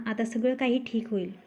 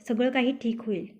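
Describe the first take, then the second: First: Said in the usual way. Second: Lovingly. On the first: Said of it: "his own reply". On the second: A narrator's reading. Girlfriend comforting him in bed, lightly tender. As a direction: soothe him gently like a girlfriend. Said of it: "Kavya प्रेमाने".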